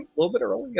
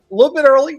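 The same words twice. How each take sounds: First: Said in the usual way. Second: Excited high. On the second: Real, not acted. Chat greeting repeated.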